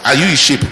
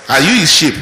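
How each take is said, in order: First: "his" pressed hard, rising question; stress on his. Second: "you" hit hard and louder, falling; stress on you. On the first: Preacher asks congregation. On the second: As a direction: push the word "you", bring it down. Preacher repeats question. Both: Shown as a demonstration.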